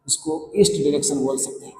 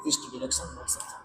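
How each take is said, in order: First: Said in the usual way. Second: Quick whispered aside, much softer; whispered repeat. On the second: Real, not acted. Teacher repeating the answer to himself in a fast whisper. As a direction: murmur east direction fast under your breath.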